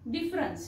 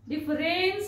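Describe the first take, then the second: First: The vowel before -ns is a reduced uh. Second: The vowel before -ns is a full e. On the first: The speaker calls it right. "अ चा उच्चार होतो" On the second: The speaker calls it wrong. "डिफरेन्स नसतो होत"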